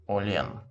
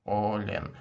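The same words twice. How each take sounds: The two takes are said the same way.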